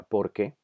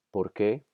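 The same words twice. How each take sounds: First: ¿por qué? said as one word, stress on por. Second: ¿por qué? with the stress landing on qué, rising; two separate words, lean on qué. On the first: Teacher showing the answer form porque, stress on por. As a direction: run it together as porque, weight on por. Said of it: "en este caso la pronunciación correcta". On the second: Teacher showing the question form, stress on qué. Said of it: "la pronunciación correcta". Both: Shown as a demonstration.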